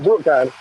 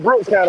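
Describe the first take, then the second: First: The first word ends without an s sound. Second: The first word ends with an s sound. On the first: The speaker calls it wrong. "not Brook County" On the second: The speaker calls it right. "It's Brooks County"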